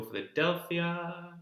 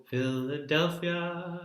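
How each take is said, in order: First: Philadelphia in the second version; the alternative Philadelphia; her other Philadelphia. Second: Philadelphia as she sings it; her own Philadelphia. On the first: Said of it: "and I go Philadelphia". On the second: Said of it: "I go Philadelphia". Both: Shown as a demonstration.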